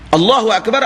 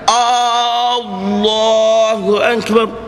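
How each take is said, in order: First: The opening vowel is kept short. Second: The opening vowel is drawn out long. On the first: It states that God is the greatest. The speaker calls it right. "Allah Maha Besar" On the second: It asks whether God is the greatest. The speaker calls it wrong. "Dia memanjangkan hamzah itu"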